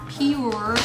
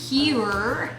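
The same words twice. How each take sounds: First: It is said like the word 'pure'. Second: It is said like the word 'pure'.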